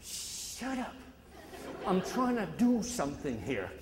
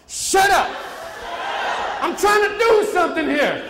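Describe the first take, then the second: First: Soft, breathy dismissal; hushed shut up, barely voiced; quiet shut-up. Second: Loud, high defiant shout; booming crowd-style shut up; confident shout. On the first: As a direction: mutter it under your breath. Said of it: "I told him". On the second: Shown as a demonstration. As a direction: shout it like you're top ten percent. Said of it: "say it like you're in the top ten percent".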